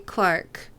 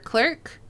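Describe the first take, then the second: First: The vowel sounds like the 'ar' in car. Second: The vowel sounds like the 'er' in her. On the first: "someone say Clark for clerk" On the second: "We pronounce it like there's an E in it"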